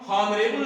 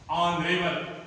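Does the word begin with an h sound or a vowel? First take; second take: h sound; vowel. First: The word begins with an h sound. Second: The word begins with a vowel sound. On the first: The speaker calls it wrong. "इसको हम हॉनरेबल नहीं पढ़ते हैं" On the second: The speaker calls it right. "इसका उच्चारण क्या है, ऑनरेबल"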